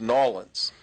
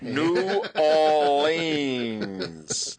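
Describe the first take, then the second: First: The name is squeezed into two short syllables. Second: The name is said in full, syllable by syllable. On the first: This is how the people who live there say it. "Everybody that lives there, it's Nolans" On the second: This is how one local lawyer said it. "He'd pronounce it like that"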